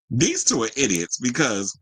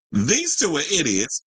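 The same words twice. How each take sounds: First: Said in the usual way. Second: Pointed, deliberate insult; firm restatement. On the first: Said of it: "I said". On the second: Shown as a demonstration. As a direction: say it again and mean it: These two are idiots. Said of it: "well, hold on. I said".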